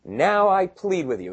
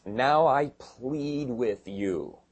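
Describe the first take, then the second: First: Higher and brighter stress on Now; verse read with a strong higher push; emphatic reading. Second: Slow, solemn reading of the text; slow scripture reading. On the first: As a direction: open with a lifted, urgent Now. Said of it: "Now he says in verse ten". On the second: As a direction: read very slowly and deliberately. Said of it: "It says". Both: Shown as a demonstration.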